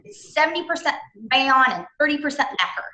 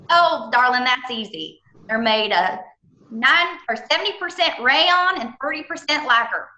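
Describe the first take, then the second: First: Said in the usual way. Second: Imitating Ken's thick Southern accent, pitched higher. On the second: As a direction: do the warehouse man's Southern accent, rising on the numbers. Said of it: "this real thick, wonderful Southern accent".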